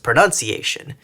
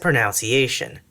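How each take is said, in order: First: The second syllable sounds like 'nun'. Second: The second syllable sounds like 'nounce'. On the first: "comments telling me that it's pronounced pronunciation" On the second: "I've only perceived a particular word as being pronounced and spelled as pronunciation"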